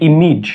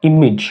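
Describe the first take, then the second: No difference in how they are said.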